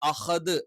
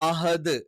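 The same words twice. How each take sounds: First: The h is harsh and overdone. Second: The h is a soft plain h. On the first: The speaker overdoes the throat sound. "കുറച്ച് extreme over ആക്കിയിട്ട്" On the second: The speaker cannot produce the throat sound. "ഹ എന്ന് ഉച്ചരിക്കാറുണ്ട്"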